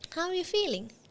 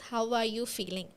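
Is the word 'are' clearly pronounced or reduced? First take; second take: reduced; clearly pronounced. First: 'Are' is unstressed and nearly dropped in fast speech. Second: Every word, including 'are', is said fully. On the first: "ഇൻറ്റൊനേഷൻ വെച്ച് fluent ആയിട്ട് സംസാരിക്കുമ്പോൾ ... we won't be stressing R" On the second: "the correct sentence is how are you feeling"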